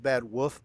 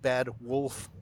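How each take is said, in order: First: The L in Wolf is dropped. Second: The L in Wolf is clearly pronounced. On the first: The speaker calls it wrong. "you pronounce it Bad Wolf because you forget the L" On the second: The speaker calls it right. "I really try to enunciate Bad Wolf Gaming"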